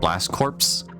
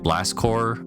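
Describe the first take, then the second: First: The last word ends in 'ps', like 'corpse'. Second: The last word ends in an r sound, like 'core'.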